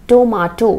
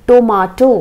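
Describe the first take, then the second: Both takes have the same delivery.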